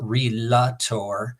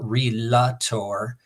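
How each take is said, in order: First: It is said with three syllables, re-la-tor. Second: It is said with three syllables, re-la-tor.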